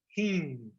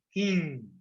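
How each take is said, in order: The two takes are said the same way.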